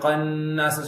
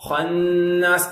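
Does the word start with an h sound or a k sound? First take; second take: k sound; h sound. First: The word begins with a hard k sound. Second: The word begins with a breathy h sound. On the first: The speaker calls it wrong. "காஃப் மாதிரி கன்னாஸ் சொல்லிடக்கூடாது" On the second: The speaker calls it right. "இல்ல ஹா ஹன்னாஸ்"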